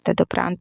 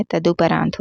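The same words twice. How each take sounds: First: तदोपरांत said as "tadoprant"; "ta-do" opening in तदोपरांत; wrong pronunciation. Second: तदुपरांत said as "taduparant"; "ta-du" opening in तदुपरांत; correct pronunciation. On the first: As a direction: say तदोपरांत with a long o. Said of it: "तो होता ही नहीं है". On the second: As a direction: say तदुपरांत with a short u. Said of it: "होता है". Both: Shown as a demonstration.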